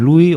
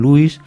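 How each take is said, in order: First: Louis said as "LOO-ee", no final S; silent S. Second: Louis said as "LOO-ees", final S sounded; S pronounced. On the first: Presenter showing one American way of saying it, silent S in Louis. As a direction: drop the S at the end of Louis. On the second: Presenter showing the other American way, S pronounced in Louis. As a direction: finish Louis on a clear S. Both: Shown as a demonstration. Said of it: "si esa S se debe o no se debe pronunciar".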